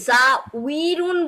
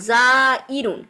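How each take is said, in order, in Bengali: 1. i-এর আগে w-এর মতো শব্দ শোনা যায়। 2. i-এর আগে গ্লটাল স্টপ শোনা যায়। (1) "জা উইরুন বললে অনেক কষ্ট না উচ্চারণ করতে" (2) "ওয়াওটাকে তারা রিপ্লেস করে ফেলছে কি হামজা দিয়ে"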